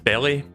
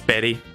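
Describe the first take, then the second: First: The middle consonant is an L sound. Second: The middle consonant is an R sound. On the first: The speaker calls it wrong. "you don't pronounce that as belly" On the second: The speaker calls it right. "It's berry, as in berries"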